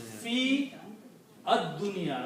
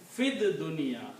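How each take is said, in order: First: Each word is said separately with full vowels. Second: The words run together as fid dunya.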